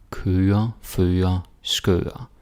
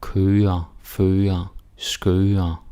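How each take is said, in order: Both takes have the same delivery.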